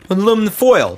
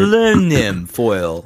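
First: The first word has four syllables, ending slurred. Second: The first word has five syllables, each sounded fully. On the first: The speaker calls it wrong. "We kind of slur the back end" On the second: The speaker calls it right. "Like they're hitting every letter"

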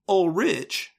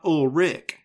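First: The name ends with a CH sound. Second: The name ends with a K sound. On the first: The speaker calls it right. "should change from that K sound into a CH sound. So it's Ulrich" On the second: The speaker calls it wrong. "not Ulrich"

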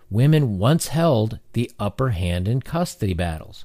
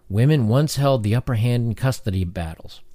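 First: It is read slowly and deliberately. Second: It is read at a normal pace.

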